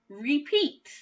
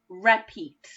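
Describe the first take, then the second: First: The first vowel is a long 'ee' sound. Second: The first vowel is a short 'eh' sound. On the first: The speaker calls it right. "now I'm going to try it with the e sound" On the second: The speaker calls it wrong. "I'm going to try it with the eh sound"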